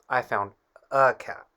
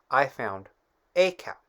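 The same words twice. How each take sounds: First: The word 'a' is reduced to a quick uh. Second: The word 'a' is said fully as the letter. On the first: This is how it sounds in fluent speech. "so fluently we say" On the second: This is the careful textbook form. "Grammatically correct sounds like this"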